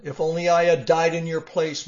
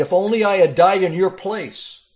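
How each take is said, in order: First: Grieving lament. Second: Loud, high cry of anguish. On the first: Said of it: "he cried". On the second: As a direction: wail it out as the grieving king. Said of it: "David cried". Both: Acted.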